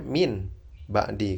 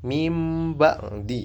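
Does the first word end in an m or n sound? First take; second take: n; m. First: The first word ends with an n sound. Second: The first word ends with a nasal m sound. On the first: "Sebenarnya min ba'di kan" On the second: "Itu nunnya seperti dibaca mim"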